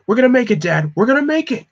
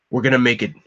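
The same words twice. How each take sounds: First: Much higher, louder, panicked yell; desperate shout. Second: Said in the usual way. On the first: Acted. Tim shouting to his dad over the comm, desperate yell. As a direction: shout it to keep hope alive.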